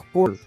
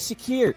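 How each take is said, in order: First: The last syllable sounds like 'koor'. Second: The last syllable sounds like 'keer'. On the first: The speaker calls it right. "It's [name]" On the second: The speaker calls it wrong. "It's not [name]"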